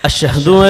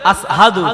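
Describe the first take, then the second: First: The word is said with an 'sh' sound. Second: The word is said with a plain 's' sound. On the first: Good callers to prayer say it this way. "যারা ভালো আযান দেয় তারা এই আযানটা কেমন ভাবে দেয়?" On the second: Someone with an injured tongue said it. "বলতেন আসহাদু।"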